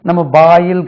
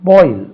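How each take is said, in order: First: The vowel is a plain long 'ah'. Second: The vowel glides like 'oy'. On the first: The speaker calls it wrong. "நம்ம பாயில் கிடையாது" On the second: The speaker calls it right. "பாயில் பாருங்க"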